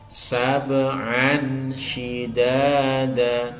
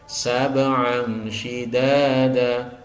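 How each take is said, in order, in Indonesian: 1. Bunyi n diucapkan jelas dan tegas. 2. Bunyi n samar tanpa dengung. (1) "jelas salah" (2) "samar saja tanpa disertai dengung"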